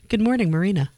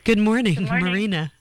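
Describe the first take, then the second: First: The greeting is said plainly, with ordinary energy. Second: The greeting is said emphatically, with more energy.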